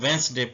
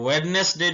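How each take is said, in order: First: The middle d is silent, two syllables. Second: The middle d and extra syllable are pronounced. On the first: The speaker calls it right. "वेंसडे पढ़ना है" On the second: The speaker calls it wrong. "इसको वेडनेसडे नहीं पढ़ना"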